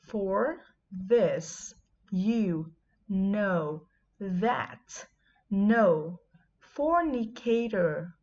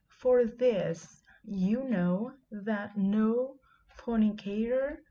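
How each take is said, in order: First: It is read slowly. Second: It is read at a normal pace.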